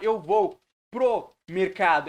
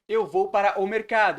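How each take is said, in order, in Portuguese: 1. 'Para o' é reduzido a 'pro'. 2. 'Para o' é dito como duas palavras inteiras. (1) "a gente também faz contrações" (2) "ao invés de para o mercado"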